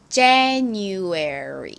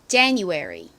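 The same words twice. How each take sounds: First: The word is said slowly and drawn out. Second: The word is said at a normal pace.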